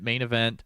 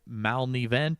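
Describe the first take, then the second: First: The name is said as the two words 'main event'. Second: The name starts with 'mal' as one blended word. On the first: This is how the owner meant the name. The speaker calls it right. "I pronounce it main event" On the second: This is how other people misread the name. The speaker calls it wrong. "They say it's Malnevent or something"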